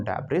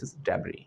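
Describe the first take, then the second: First: "debris" said as "debris" with the s sounded; teacher showing the wrong "debris" with a final s. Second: "debris" said as "debri" with a silent s, softer; teacher giving the right "debris" as debri; correct debris. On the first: "debris" mispronounced with a sounded s. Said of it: "It's not debris". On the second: Correct "debris" as debri, quietly. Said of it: "this is debris". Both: Shown as a demonstration.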